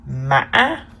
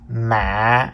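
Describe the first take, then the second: First: The pitch is high with a break. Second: The pitch is low with a break. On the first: "The fifth tone is called the high broken tone" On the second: "the low broken tone"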